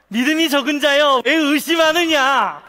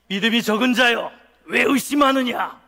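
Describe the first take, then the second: First: Loud, high, delighted laughing call. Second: Loud, stern acted rebuke; scolding. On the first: Acted. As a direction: call it out through laughter, stretching the end. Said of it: "이렇게 웃으시는 거예요". (웃으며 높고 크게 외치듯) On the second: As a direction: thunder it as a reproach. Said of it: "다 혼내는 모드로". (크게 혼내는 말투로)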